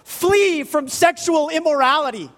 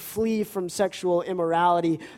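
First: It is said in an urgent, pleading tone. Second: It is said in a calm, plain reading tone. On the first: It is a desperate warning to escape danger. "the tone with which Paul is writing is more like" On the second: It is read as a plain instruction. "while we read"

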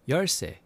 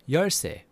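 Both takes have the same delivery.

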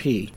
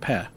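First: The syllable ends with a long 'ee' vowel. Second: The syllable ends with a short 'eh' vowel. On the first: The speaker calls it wrong. "not P" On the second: The speaker calls it right. "Pe, not P"

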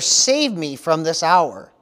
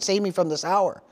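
First: It is said as a statement, falling. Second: It is said as a question, rising.

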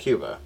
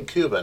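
First: Cuba is said in the American way. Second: Cuba is said in the local Spanish way. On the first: The speaker calls it wrong. "not Cuba" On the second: The speaker calls it right. "And I say Cuba"

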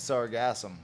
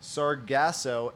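First: The word ends with an M sound. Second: The word ends on a vowel, with no M.

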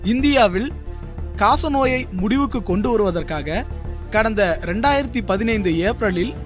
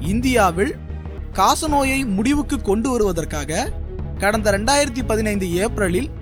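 The two takes are said the same way.

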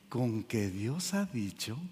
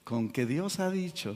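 First: It is said in a soft, sweet, persuasive voice. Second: It is said in a plain voice.

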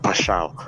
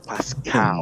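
First: The middle of the name sounds like sh. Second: The middle of the name sounds like sk. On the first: The speaker calls it wrong. "This guy said Pashal" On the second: The speaker calls it right. "no, Pascal"

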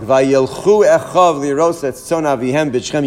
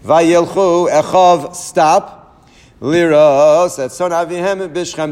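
First: It is read straight through without a pause. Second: There is a clear pause after echav.

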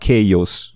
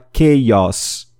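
First: The final vowel sound is closed. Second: The final vowel sound is open. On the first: The speaker calls it wrong. "E não chaos" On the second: The speaker calls it right. "tem o som aberto no final do O. Então é chaos"

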